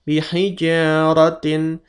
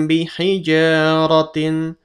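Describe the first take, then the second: No difference in how they are said.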